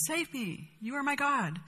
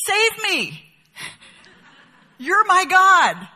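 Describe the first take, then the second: First: Softer, hushed plea to the idol; softer, devout murmur to a block of wood; hushed prayer. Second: High, loud, drawn-out cry to the idol; mock desperate cry, higher and louder; idol worshipper's plea. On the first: Retold or imitated. Worshipper prays to idol again. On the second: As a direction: beg the carved block to save you. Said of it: "listen to what he says to it".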